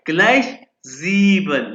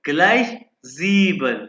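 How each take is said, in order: The two takes are said the same way.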